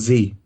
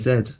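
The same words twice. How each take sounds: First: The letter is said the American way. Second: The letter is said the British way.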